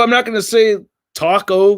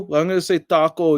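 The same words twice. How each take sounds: First: "taco" with a flat American "ta", stressed NOT; plain American "taco", a little louder; Americanized taco. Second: "taco" with a crisp Spanish t and a pure "a"; careful Spanish "taco". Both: Shown as a demonstration. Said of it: "if I'm in Mexico".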